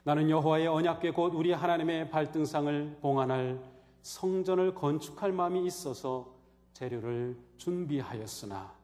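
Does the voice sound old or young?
young. It is read in a plain, young-sounding voice. It does not sound like a dying man's last words. The speaker calls it wrong. "그냥 젊은 목소리로 하니까 이게 유언의 분위기가 안 나요"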